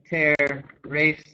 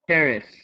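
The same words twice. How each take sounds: First: The second syllable has a full vowel. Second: The second syllable has a reduced vowel. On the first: The speaker calls it wrong. "I don't say terrace" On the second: The speaker calls it right. "You can hear how it's the second syllable becomes reduced"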